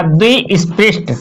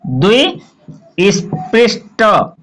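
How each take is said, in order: First: Said in the usual way. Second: द्विस्पृष्ट drawn out very slowly in separate pieces; slow classroom dictation of द्विस्पृष्ट, piece by piece; syllable by syllable. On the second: Shown as a demonstration. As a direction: break द्विस्पृष्ट into द्वि, स्, पृष्, ट with pauses. Teacher breaks term into syllables.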